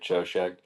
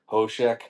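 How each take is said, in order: First: The word is said the anglicized way. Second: The word is said the original Hebrew way. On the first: This is how the band says its own name. "We just say it" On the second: This is how the word is said in Hebrew. "I believe the correct pronunciation for it is uh"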